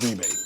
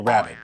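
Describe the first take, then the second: First: It is said like the word rebate. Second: It is said like the word rabbit. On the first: "those in Europe and Australia and what have you will typically go with rebate" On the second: "English speakers in North America are usually going to say rabbit"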